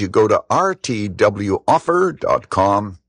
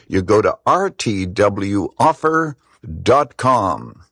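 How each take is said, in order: First: It is said quickly. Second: It is said more slowly.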